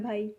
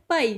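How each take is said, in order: First: Soft, gentle भाई with voiced bh; polite Hindi pronunciation. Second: पाई pushed out with an unvoiced p; a bit forceful, Punjabi. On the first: Teacher demonstrating the Hindi word for brother, polite soft pronunciation. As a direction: say भाई softly, breathy Hindi bh. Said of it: "बिल्कुल polite way में बोला". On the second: Teacher demonstrating the Punjabi word for brother, a bit forceful. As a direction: hit पाई firmly, p not bh. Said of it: "थोड़ा ज़ोर से बोला जा रहा है". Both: Shown as a demonstration.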